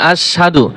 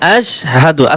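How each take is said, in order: First: The sh and h sounds run together. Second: The sh and h sounds are said separately. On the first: The speaker calls it wrong. "এইখানে অনেকেই ভুলটা করে থাকেন, আশহাদু পড়েন" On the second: The speaker calls it right. "আশ হা দাল পেশ দু ... সাধু হবে না"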